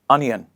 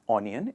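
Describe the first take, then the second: First: The word begins with an 'uh' sound. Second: The word begins with an 'oh' sound. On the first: The speaker calls it right. "it is a sound" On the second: The speaker calls it wrong. "misunderstand it with the sound O in the beginning"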